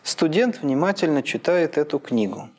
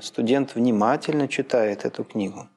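First: The main stress falls on the word книгу. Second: The main stress falls on the word внимательно. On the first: "Последнее слово «книгу», туда на него падает синтагматическое ударение и фразовое ударение" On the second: "Еще левее"

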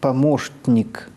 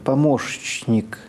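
First: An sh then a nasally released t precede n. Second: An sh then a ch come before the n. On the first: The speaker calls it right. "«т», которое взрывается в носоглотку, в «н»" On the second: The speaker calls it wrong. "«ш» – это щелевой звук. За ним идет «ч»"

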